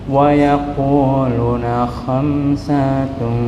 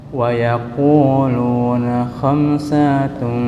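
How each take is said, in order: The two takes are said the same way.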